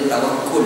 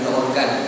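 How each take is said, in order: First: The final syllable has a 'u' vowel. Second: The final syllable has an 'a' vowel. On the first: This is the original Arabic way of saying it. The speaker calls it right. "Sebutan betulnya tawakul, itu yang betul" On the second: This is the popular local way of saying it. The speaker calls it wrong. "Sebenarnya sebutan betulnya bukan tawakal"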